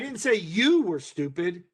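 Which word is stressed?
you. The word 'you' is stressed. Someone else was called stupid. "emphasis being on those individual words"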